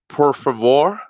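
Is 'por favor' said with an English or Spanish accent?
English. It is said with an English-speaker's accent. The speaker calls it wrong. "it's not por favor"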